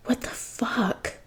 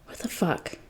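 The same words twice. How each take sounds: First: Drawn-out whisper of disbelief; slow stunned whisper. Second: Hushed, breathless disbelief under the breath; barely voiced, as if to himself; stunned whisper. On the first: Jason repeating his shock to himself, slow whisper. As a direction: let each word hang, slow and airless. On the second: Jason's shocked thought, whispered to himself. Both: A narrator's reading.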